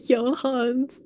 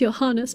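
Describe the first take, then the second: First: The name is said in a clipped, shortened form. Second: The name is said in its full German form. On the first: It copies how the game says the name. The speaker calls it wrong. "this game pronounces Johans" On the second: It is how a German name should sound. The speaker calls it right. "should be pronounced Johannes because he's German"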